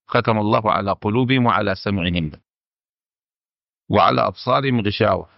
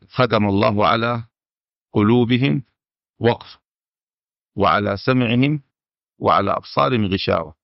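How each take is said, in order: First: The pause comes right after the word for hearing. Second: The pause comes right after the word for hearts. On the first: Hearts and hearing are sealed; only sight is covered. "وهذه قراءة الأكثرين" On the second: Only the hearts are sealed; hearing and sight are covered. "من وقف ختم الله على قلوبهم وقف"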